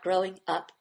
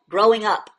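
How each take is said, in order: First: It is said timidly and tentatively. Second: It is said forcefully and decisively. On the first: The speaker calls it wrong. "You are not walking in a field of eggshells" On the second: The speaker calls it right. "definitely, like you just threw a grenade over a wall"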